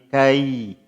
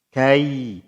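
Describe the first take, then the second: No difference in how they are said.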